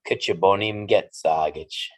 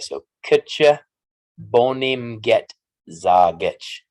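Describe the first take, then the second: First: The sentence is said at normal speed. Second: The sentence is said slowly.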